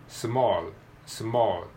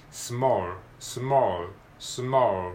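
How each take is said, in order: First: "small" ending in a clear, light L. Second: "small" ending in a dark, vowel-like L. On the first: Teacher demonstrating the light-L option in "small". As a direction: finish "small" with tongue tip touching for a light L. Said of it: "明るいL". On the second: Teacher demonstrating dark L at the end of "small". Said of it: "だからこれはダークL". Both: Shown as a demonstration.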